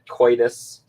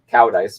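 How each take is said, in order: First: The surname sounds like the word coitus. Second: The surname sounds like the words cow dice. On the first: The speaker calls it wrong. "You pronounce that David Coitus" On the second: The speaker calls it right. "it's a Danish last name pronounced cow dice"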